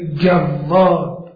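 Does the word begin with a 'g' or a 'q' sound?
g. The first sound is a hard 'g'.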